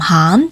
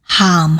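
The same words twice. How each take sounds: First: The pitch rises to a high level. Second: The pitch does not rise high.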